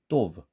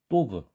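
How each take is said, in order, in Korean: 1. 첫 자음은 세고 긴장된 소리예요. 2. 첫 자음은 세고 긴장된 소리예요.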